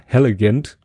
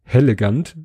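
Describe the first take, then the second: First: „hellegant“ with English vowels, the second e like the a in elegant; „hellegant“ with an English accent, sounding a little like Hölle; English-style hellegant. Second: „hellegant“ said the German way, open e sounds throughout; „hellegant“ with German vowels, light rise at the end. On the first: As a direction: say „hellegant“ as if it were an English word. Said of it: "mit englischen, englischer Betonung". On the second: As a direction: read „hellegant“ as a plain German word. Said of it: "Und dann in Kursiv". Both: Shown as a demonstration.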